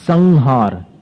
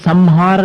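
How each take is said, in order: First: The nasal before h sounds like n. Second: The nasal before h sounds like m. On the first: The speaker calls it right. "संहार न बन जाता है अनुस्वार का" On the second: The speaker calls it wrong. "वहां पर अपन संहार नहीं बोलते"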